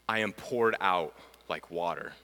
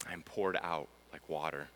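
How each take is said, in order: First: Said in the usual way. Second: Soft echo. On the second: Shown as a demonstration. Echoing the psalm line to listeners, softly and low. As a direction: let the line sink to a hushed echo. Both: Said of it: "And here's one more".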